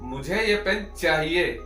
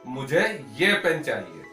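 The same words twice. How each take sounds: First: The stress is on the word चाहिए. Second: The stress is on the word ये. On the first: It stresses that the pen is wanted. "चाहिए पे देना हो" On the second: It answers which pen is wanted. "किसी ने पूछा भाई आपको कौन सा पेन चाहिए"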